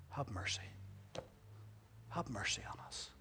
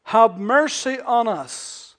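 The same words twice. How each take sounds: First: Whispered, low plea; humble plea. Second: Loud, slow plea; crying for mercy. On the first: Shown as a demonstration. Lepers daring only to ask humbly, whispered. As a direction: breathe it humbly. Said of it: "That's all we're asking". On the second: Retold or imitated. Lepers crying out, loud and slow. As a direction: cry it out long. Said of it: "And so".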